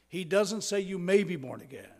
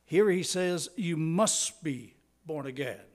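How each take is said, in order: First: May lifted and weighed as the weaker option; stress on may. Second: Must and Here landed firmly with a falling close; stress on must. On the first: Pastor contrasts may with must for the congregation, stress on may. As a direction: lean on the word may, tentative. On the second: Pastor drives home the command to the congregation, firm stress on must. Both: Shown as a demonstration. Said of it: "He states it in the strongest language".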